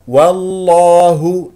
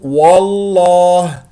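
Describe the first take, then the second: First: The opening w sound is light and thin. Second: The opening w sound is heavy and thick. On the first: The speaker calls it right. "والصحيح و والله" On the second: The speaker calls it wrong. "الخطأ أن تقول وال والله، ماذا فعلت؟ فخمت الواو"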